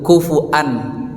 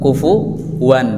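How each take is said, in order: First: The middle consonant is a glottal stop. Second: The middle consonant is a w sound. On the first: This is another transmitted reading tradition. "Jadi wawunya berubah menjadi hamzah" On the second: This is the commonly heard reading tradition. "kalau di bacaan Imam Hafiz an Asim yang sering kita dengar"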